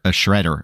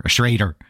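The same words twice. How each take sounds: First: "shredder" with a short e, as shred-der; standard pronunciation. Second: "Schrader" with a long ay, as shray-der; Midwestern pronunciation. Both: Shown as a demonstration. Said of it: "as we say".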